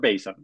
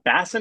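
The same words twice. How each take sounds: First: The first syllable does not sound like bass. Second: The first syllable sounds like the fish bass. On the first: The speaker calls it wrong. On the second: The speaker calls it right.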